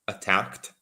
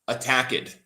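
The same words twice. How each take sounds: First: The ending is a t sound, like asked. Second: The -ed ending is an extra syllable. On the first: The speaker calls it right. "We want to say attacked, just like we would say asked" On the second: The speaker calls it wrong. "Some people say attacked. It's wrong"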